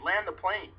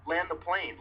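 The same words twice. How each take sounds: First: Higher, repeated yell; retold scream again. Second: High, urgent yell; retold scream. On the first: Terrified passenger repeating his plea to land, high shout. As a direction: keep yelling it, just as desperate. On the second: Panicking passenger begging the crew to land, high shout. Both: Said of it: "while screaming at the top of my lungs".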